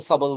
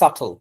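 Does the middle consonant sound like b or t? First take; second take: b; t. First: The middle consonant sounds like a b. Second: The middle consonant sounds like a t. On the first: The speaker calls it wrong. "আপনারা অনেকে সাবল সাবল বলেছিলেন" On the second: The speaker calls it right. "That's সাটল"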